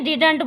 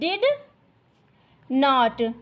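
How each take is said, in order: First: The words are contracted into one short word. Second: Two full words are said with no contraction. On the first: "short में डिडंट बोलते हैं"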